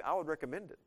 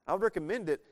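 First: Said in the usual way. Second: "recommend" punched louder and higher; emphatic repeat. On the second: Shown as a demonstration. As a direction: hit "recommend" hard the second time.

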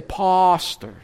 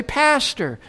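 First: Pastor with a long open ah, PAHS-tuh; South African pastor. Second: Pastor with a flat a as in cat and an r at the end; American pastor. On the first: Retold or imitated. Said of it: "they say pastor". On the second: Shown as a demonstration. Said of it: "I say pastor".

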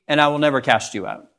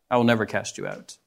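First: Said in the usual way. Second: Softer, lower repeat of the promise; soft echo. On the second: Acted. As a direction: let it fall away gently.

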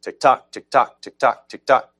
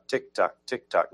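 First: The wrong version, punching "tick" louder and higher; wrong stress. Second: "tock" leaned on in each tick tock, a quiet steady backbeat; backbeat stress. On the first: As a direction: tick tock, tick tock said louder and higher, each "tick" hit hard. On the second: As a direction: put the weight on "tock" every time. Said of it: "so it's tick tock". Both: Shown as a demonstration.

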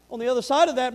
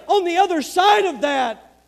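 First: Said in the usual way. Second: Slow, loud, high stress on side; slow emphatic. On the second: Real, not acted. Repeated phrase, first slow and loud.

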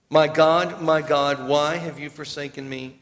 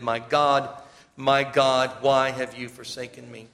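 First: Loud opening, falling back to a grieving plea; preacher voicing the psalm's loud cry; anguished plea. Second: Said in the usual way. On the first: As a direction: cry it out to God. Reading Psalm twenty-two aloud.

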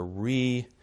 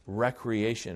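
First: "recreation" said as REE, tiny break, cree-AY-shun; re-creation pronunciation. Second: "recreation" said as WRECK-ree-AY-shun; short REK at the start of "recreation"; everyday recreation pronunciation. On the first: Preacher guarding against that confusion, re-creation pronunciation. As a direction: split "recreation" after a long REE. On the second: Preacher showing the word to avoid, everyday pronunciation. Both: Shown as a demonstration. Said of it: "we should pronounce it that way".

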